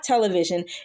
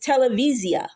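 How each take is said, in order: First: It is said with an English pronunciation. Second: It is said with a Hebrew pronunciation. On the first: Nobody in Israel will understand it. The speaker calls it wrong. "it's not television" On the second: This is how people in Israel say it. The speaker calls it right. "it's televisia"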